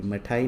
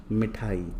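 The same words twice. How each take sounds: First: मठाई with a short a after म; मठाई, opening on ma instead of mi; misspelt reading. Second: Said in the usual way. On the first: Shown as a demonstration. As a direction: say मठाई without the i vowel. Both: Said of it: "मठाई नहीं".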